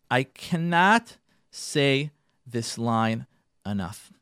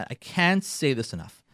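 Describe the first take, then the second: First: "I cannot say this line enough" in slow, separated words; slow emphasis. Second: Said in the usual way. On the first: Real, not acted. Speaker driving home a key line, "I cannot say this line enough" spaced out emphatically. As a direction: weigh each word of "I cannot say this line enough".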